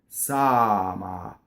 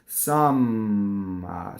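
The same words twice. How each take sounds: First: The M is short without held lip buzz. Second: The M is held long with buzzing lips. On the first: The speaker calls it right. "I don't let my lips to vibrate. And now it's single M" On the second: The speaker calls it wrong. "if I made a double M, it would be like this"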